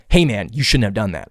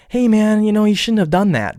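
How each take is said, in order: First: Read as blunt. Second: Higher, easygoing, meant casually; light friendly text. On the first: Someone reading a text as an accusation, blunt and cold. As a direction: read it as a reproach, not a joke. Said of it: "how I'm gonna read it is". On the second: Texting a friend about a mistake, light and friendly. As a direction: toss it off lightly, no offense meant. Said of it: "You may have texted it". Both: Retold or imitated.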